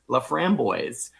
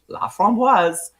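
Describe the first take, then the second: First: The name is pronounced the English way. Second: The name is pronounced the French way. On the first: This is how the family says their own name. The speaker calls it wrong. "they pronounce their own name La Framboise" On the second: This is how the French word is meant to sound. The speaker calls it right. "their name is La Framboise"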